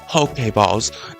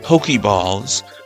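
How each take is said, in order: First: The 'e' in Poke is said as 'ay'. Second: The 'e' in Poke is not said as 'ay'. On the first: The speaker calls it right. "P O K, accent E, balls" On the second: The speaker calls it wrong. "not Pokeballs"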